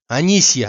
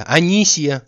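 First: Louder call across the house. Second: Louder, higher second call; calling out again. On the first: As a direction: shout for Anisya. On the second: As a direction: call her name more urgently. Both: Acted. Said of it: "закричал Обломов".

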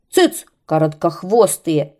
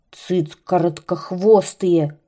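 First: Loud angry shout; kite shouting. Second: Kite grumbling. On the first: Kite shouts the birds down, loud and angry. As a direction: yell them down. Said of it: "крикнул змей". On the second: Kite grumbles at the mocking birds, slow and sullen. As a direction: growl it out slowly. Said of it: "ворчал змей". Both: Acted.

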